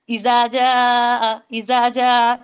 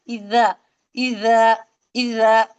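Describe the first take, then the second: First: इजा जा read slowly with a plain English j sound; wrong reading. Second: इजा slow and lower, with the Arabic dh sound; now say इजा the correct way, slowly; right reading. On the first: Teacher showing students the wrong way to say इजा. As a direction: show the mistake, इजा जा with a hard j. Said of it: "इजा जा नहीं पढ़ेंगे". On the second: Teacher giving the correct reading of इजा to students. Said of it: "अब क्या पढ़ेंगे?". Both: Shown as a demonstration.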